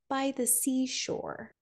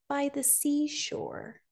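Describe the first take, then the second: Both takes have the same delivery.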